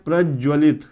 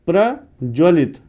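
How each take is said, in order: First: The word is pronounced carelessly, with altered sounds. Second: The word is pronounced carefully, every sound clear. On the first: The speaker calls it wrong. "उच्चारण गलत कर दिया हमने" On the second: The speaker calls it right. "अब आप सही पढ़ेंगे प्रज्वलित"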